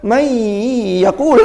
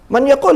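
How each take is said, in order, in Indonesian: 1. Bunyi n menyatu dengan bunyi berikutnya. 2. Bunyi n diucapkan jelas dan terpisah. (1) "Bukan may yaqul, enggak" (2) "Man yaqul yang ngono biasa"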